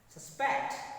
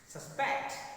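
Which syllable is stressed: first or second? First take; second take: second; second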